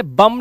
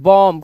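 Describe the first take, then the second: First: बम with a short "uh" vowel; wrong pronunciation. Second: बॉम्ब as "bom", open o and silent b; correct pronunciation. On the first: Teacher shows how not to say bomb, बम, mispronounced. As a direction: say बम like "bum". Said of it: "ऐसे ही हम इसे बम नहीं बोलते". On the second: Teacher gives class the English बॉम्ब as "bom", correctly pronounced. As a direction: round the vowel in बॉम्ब, end on m. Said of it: "इसे हम बोलते हैं". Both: Shown as a demonstration.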